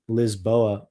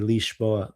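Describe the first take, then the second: First: It is said with a Spanish reading. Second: It is said with a Portuguese pronunciation. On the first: "Like in Spanish, you'd read Lisboa" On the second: "Portuguese would say Lisboa"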